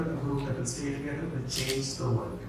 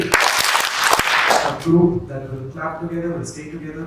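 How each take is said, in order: First: Quiet closing line. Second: Slow chanted slogan. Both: Shown as a demonstration. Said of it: "let's try this one last time".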